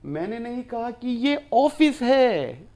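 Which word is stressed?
Office. The word 'office' carries the main stress. This place is a classroom, not an office. "ये तो classroom है"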